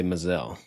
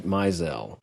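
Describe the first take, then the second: First: "Mizell" as muh-ZELL; weak first vowel, stressed end in "Mizell"; family pronunciation. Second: "Mizell" as MY-zell; long i at the start of "Mizell"; answering-machine pronunciation. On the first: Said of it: "we would always say Mizell". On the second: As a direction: say "Mizell" slowly, first syllable like "my". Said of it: "when we would say the name by itself". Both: Shown as a demonstration.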